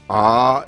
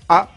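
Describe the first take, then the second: First: The vowel is long with a glottal catch. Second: The vowel is short with a plain onset. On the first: "on les allonge avec un tarava"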